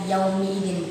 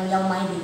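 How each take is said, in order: First: The vowel after 'yaum' is an 'i'. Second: The vowel after 'yaum' is an 'a'. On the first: The speaker calls it right. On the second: The speaker calls it wrong.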